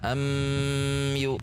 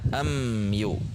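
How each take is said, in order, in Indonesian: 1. Bunyi m ditahan panjang sebelum yu. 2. Bunyi m menyambung halus ke yu. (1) "Atau ditahan am yu" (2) "sehingga dibaca am yu"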